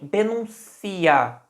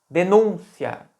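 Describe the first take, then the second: First: The stress is on the 'ci' syllable. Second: The stress is on the 'nun' syllable. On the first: It is a form of the verb to denounce. "que é uma flexão do verbo denunciar" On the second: It is the noun, an accusation. "o som mais forte da palavra? O som do U"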